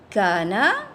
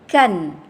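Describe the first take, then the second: First: The word ends on a vowel after n. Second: The word ends on a bare n sound. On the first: The reading continues on. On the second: The reading stops here.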